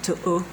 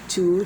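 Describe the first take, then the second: First: The word ends with an extra uh sound. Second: The word is said plainly with no added sound. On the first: The speaker calls it wrong. "if you try to sound it, it's going to sound like to uh" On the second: The speaker calls it right. "No, to"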